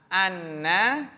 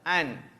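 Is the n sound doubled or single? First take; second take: doubled; single. First: The n sound is doubled and followed by a vowel. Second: The n sound is single and ends the word. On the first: A noun follows the word. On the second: A verb follows the word.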